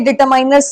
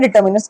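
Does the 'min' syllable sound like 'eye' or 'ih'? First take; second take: eye; ih. First: The 'min' syllable has an 'eye' vowel. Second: The 'min' syllable has a short 'ih' vowel. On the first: The speaker calls it wrong. "ये डिटरमाइनर्स नहीं होता है" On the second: The speaker calls it right. "उससे बना है डिटर्मिनर्स"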